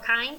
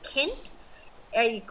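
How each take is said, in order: First: It is pronounced like an English word. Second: It is pronounced like a German word.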